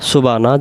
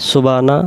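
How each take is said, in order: Both takes have the same delivery.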